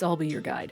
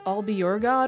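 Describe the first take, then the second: First: The last syllable sounds like 'guide'. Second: The last syllable sounds like 'god'. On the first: The speaker calls it right. "It's I'll be your guide" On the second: The speaker calls it wrong. "they pronounced it differently. They were like"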